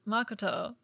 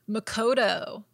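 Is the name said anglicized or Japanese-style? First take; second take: Japanese-style; anglicized. First: The name is said in a Japanese style. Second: The name is said in an anglicized way. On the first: The speaker calls it right. "Which I would pronounce as Makoto" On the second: The speaker calls it wrong. "Worst pronunciation of a Japanese name"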